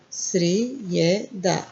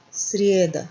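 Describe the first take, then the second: First: Srijeda drawn out very slowly. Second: Said in the usual way. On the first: Shown as a demonstration. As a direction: sound out Srijeda slowly for learners.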